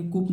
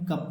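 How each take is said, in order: First: "कुप" with oo instead of uh; wrong oo vowel. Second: "कप" with uh, pitched lower; short uh vowel. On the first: Teacher showing what not to read, oo-vowel "कुप". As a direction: misread it as "कुप", with oo. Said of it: "कुप नहीं". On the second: Teacher giving the correct reading, short-vowel "कप". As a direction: answer "कप" with the bare a sound. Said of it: "क्या पढ़ेंगे". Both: Shown as a demonstration.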